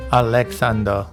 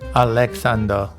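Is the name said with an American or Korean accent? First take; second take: Korean; Korean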